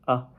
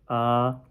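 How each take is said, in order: First: The syllable is short and light, without contour. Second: The pitch stays high and level. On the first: "neutral tone ... It's very light" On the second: "first tone, going straight"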